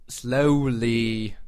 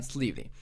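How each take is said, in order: First: Drawn out slowly. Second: Said in the usual way. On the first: Shown as a demonstration. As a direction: stretch "Slowly" out long and deliberate. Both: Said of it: "let it try again, slowly".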